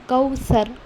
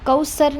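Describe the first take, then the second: First: The middle consonant is a th sound. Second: The middle consonant is a plain s sound. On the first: The speaker calls it right. "ज़बान होती है वो दो दाँतों के जो जॉज़ होते हैं वो बीच में आएंगी" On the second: The speaker calls it wrong. "कौसर नहीं"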